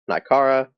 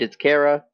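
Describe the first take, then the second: First: The name does not sound like 'character'. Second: The name sounds like the start of 'character'. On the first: The speaker calls it wrong. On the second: The speaker calls it right. "In my mind, it's Kara"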